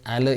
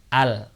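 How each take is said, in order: First: The L ends with a short bouncing echo. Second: The L is held and stops cleanly. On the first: The speaker calls it wrong. "itu seperti ada qalqalah" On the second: The speaker calls it right. "harusnya bal atau al"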